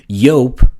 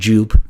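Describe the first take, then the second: First: The name starts with a Y sound. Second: The name starts with a J sound. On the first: The speaker calls it right. "Yope with an exclamation mark" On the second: The speaker calls it wrong. "no, it's not Jupe"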